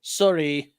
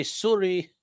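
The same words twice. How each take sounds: First: Canadian accent, Sorry said as soo-ree like the town Surrey; light mock Canadian accent, soo-ree. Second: Canadian accent on Sorry, rounded soor-ee; mock Canadian accent saying Sorry. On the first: Showing chat the Canadian Sorry, lightly in a Canadian accent. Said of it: "In a typical Canadian accent". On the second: Telling chat how Canadians say Sorry, in a light Canadian accent. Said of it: "And you just gotta say". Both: Shown as a demonstration.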